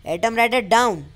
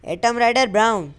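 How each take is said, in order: First: atom rider डाउन shouted loud and high, डाउन with a plain D; correct word shouted. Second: atom rider ब्राउन shouted loud and high, ब्राउन with a BR; wrong word shouted. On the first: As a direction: bellow the command, now with डाउन right. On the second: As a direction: bellow the command but slip to ब्राउन. Wrong shouted command, then corrected. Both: Acted.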